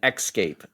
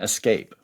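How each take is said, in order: First: It begins with an 'eks' sound. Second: It begins with an 'es' sound. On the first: "substitution of the E X sound for the E S sound... I'm kind of overemphasizing the X" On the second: "rather than"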